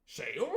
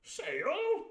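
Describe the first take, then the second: First: Said in the usual way. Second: Much higher, louder squire echo; the squire echoing the boy in a high bluster; jolly squire. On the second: Acted. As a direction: squeak it like a puzzled old squire. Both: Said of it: "says he".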